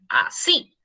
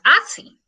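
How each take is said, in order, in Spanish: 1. El acento está en la última sílaba. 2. El acento está en la primera sílaba. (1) "decimos así. Y como decimos así, el acento lleva en la I" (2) "Nosotros no decimos así"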